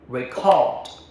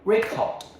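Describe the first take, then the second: First: The stress is on the second syllable. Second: The stress is on the first syllable.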